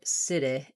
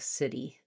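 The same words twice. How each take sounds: First: The final vowel is a lax 'ih' sound. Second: The final vowel is a full 'ee' sound. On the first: The speaker calls it wrong. "I will often hear city instead of" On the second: The speaker calls it right. "I still need to have that same E sound here"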